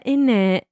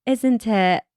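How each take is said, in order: First: IN IT run together as British "innit"; a clipped-together INNIT with no S sound. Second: ISN'T IT in full, with the S sounded; British tag question, ISN'T IT said out fully. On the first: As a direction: say IN IT as one British word, "innit". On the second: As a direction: say ISN'T IT as separate words, British style. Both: Retold or imitated. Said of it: "can't stop doing the British accent".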